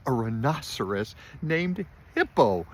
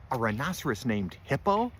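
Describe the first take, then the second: First: Loud, high exclamation of hilarity; crying out, amused. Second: Raised, questioning amusement; amused disbelief. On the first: Fluffy howling at the rhinoceros's name, crying out. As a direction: cry it out, punching each word. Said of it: "he cried". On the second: Fluffy hearing the rhinoceros's name, amused disbelief. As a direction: repeat it as a slightly louder, incredulous question. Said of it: "Fluffy smiled". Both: A narrator's reading.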